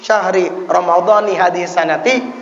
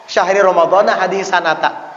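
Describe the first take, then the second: First: The words end with an 'i' vowel. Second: The words end with an 'a' vowel. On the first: It means the month of Ramadan of this year. The speaker calls it right. "nah ini ada maknanya" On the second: The phrase carries no meaning. The speaker calls it wrong. "tidak ada maknanya"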